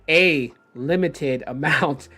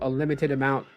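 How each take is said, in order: First: It is said slowly and deliberately. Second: It is said at a normal speaking pace.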